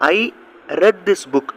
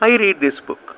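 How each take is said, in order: First: The word 'read' rhymes with 'bed'. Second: The word 'read' rhymes with 'seed'. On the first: The reading happened in the past. "Past டென்ஸில் வாசிக்கிறப்ப I ரெட் this book அப்படின்னு சொல்லணும்" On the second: The reading happens now or habitually. "Present டென்ஸில்"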